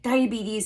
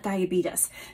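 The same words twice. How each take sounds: First: The word ends with a 'teez' sound. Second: The word ends with a 'tus' sound. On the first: The speaker calls it right. "It's a T E S" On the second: The speaker calls it wrong. "as though there's a T U S at the end"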